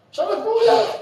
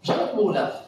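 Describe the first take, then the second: First: "אפשר להיות מאולף" raised high with a laugh; high emphatic "מאולף"; high emphatic repeat. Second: Said in the usual way. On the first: Shown as a demonstration. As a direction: push the point home, laughing. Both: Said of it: "repeated for emphasis".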